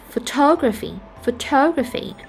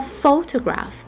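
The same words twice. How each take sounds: First: "photography" stressed on TOG; stress on second syllable. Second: "photograph" stressed on PHO; stress on first syllable. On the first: Teacher contrasting the second word for learners, second-syllable stress on "photography". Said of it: "the second syllable is stressed". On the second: Teacher contrasting two words for learners, first-syllable stress on "photograph". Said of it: "we have the first syllable to be stressed". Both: Shown as a demonstration.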